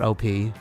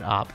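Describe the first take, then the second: First: It is spoken as two separate letters. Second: It is spoken as one short syllable. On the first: It means overpowered. The speaker calls it wrong. "not O P, overpowered" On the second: It means an operation. The speaker calls it right. "but Op"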